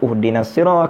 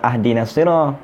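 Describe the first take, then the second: First: The first word begins with a u vowel. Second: The first word begins with an a vowel. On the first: "kenapa tak baca uhdinas sirah" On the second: "kenapa tak baca uh, ahdinas sirah"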